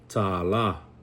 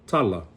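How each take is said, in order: First: Both syllables are stressed and held long. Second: The stress is on the first syllable only. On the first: The word means a dollar. "Put the macron over both of them" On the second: The word means story or spoken words. "I emphasize the first one because it's the second to the last syllable"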